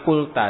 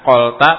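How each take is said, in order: First: The first vowel is a rounded u sound. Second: The first vowel is an open, unrounded sound. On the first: The speaker calls it right. "tapi kulta. Dengan didomahkan awalnya" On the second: The speaker calls it wrong. "Bukan kolta"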